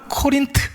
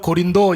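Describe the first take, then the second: First: It is said the English way, Ko-rin-t. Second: It is said with Korean sounds, Go-rin-do. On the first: "영어 발음으로는 코린트 이렇게 발음을 해요" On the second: "우리나라 발음,발음으로는 고린도 이렇게 발음을 하지만"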